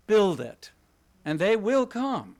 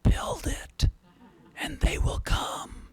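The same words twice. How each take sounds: First: Said in the usual way. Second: Slow, haunting stage whisper; creepy whisper. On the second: Acted. Lecturer imitating the film's haunting voice for the audience, creepy whisper. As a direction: whisper it like an eerie disembodied voice. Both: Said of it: "this rather creepy voice whispering".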